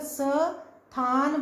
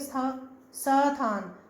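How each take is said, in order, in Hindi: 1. 's' एक पूरा अक्षर है, जिसमें स्वर है। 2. 's' बहुत संक्षिप्त है, इसमें कोई स्वर नहीं। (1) "अगर स थान बोलेंगे" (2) "आधा स, बिल्कुल कम समय लगा बोलने में"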